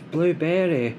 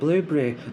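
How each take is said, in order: First: The word is said clearly as 'blueberry'. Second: The word is blurred so it sounds like 'boobly'. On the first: "it's blueberry" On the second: "like I'm trying to say boobly"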